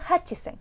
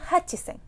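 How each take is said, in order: First: The word is said with the middle chi syllable. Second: The word is said with the middle chi syllable.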